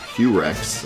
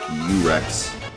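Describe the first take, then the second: First: The word begins with an audible H sound. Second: The word begins with no H sound. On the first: "in English it'd be like Hurex" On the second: "the H would be silent"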